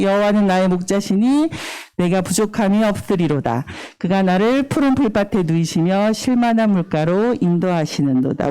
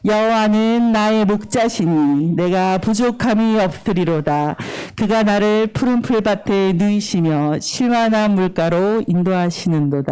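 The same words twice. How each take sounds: First: Said in the usual way. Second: Slow, measured verse for others to follow; slow recitation. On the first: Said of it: "한번 제가 고백해 볼게요". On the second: Shown as a demonstration. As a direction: lead them through the verse slowly. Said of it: "천천히".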